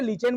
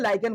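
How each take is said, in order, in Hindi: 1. पहला अक्षर 'lee' जैसा लगता है, फिर 'chen'। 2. पहला अक्षर 'lie' जैसा लगता है, फिर 'ken'। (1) "हिंदी में से लीचेन बोला जाता है" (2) "इंग्लिश में से लाइकेन बोला जाता है"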